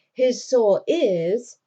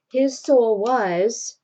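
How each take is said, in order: First: Slow, louder, corrective "is" with a rise; stress on "is". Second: Slow, louder, drawn-out "was" with a rise; stress on "was". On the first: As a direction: correct yourself, leaning hard on "is". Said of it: "I mean". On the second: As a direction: let "was" slip out, held and emphatic. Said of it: "she caught that word was". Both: Retold or imitated.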